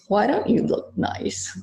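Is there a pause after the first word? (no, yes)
no. The words run together without a pause. It is a criticism. "Which is a criticism"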